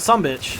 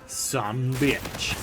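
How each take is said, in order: First: The words run together with light stress. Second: Both words are stressed separately and clearly. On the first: The speaker calls it right. "that's how you say it" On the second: The speaker calls it wrong. "all emphasized and whatnot. That's not how you say it"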